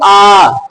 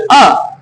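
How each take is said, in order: First: The vowel is held about three times as long. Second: The vowel is held very briefly. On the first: "ह्रस्व से तिगना समय प्लुत को" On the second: "एक मात्रा काल"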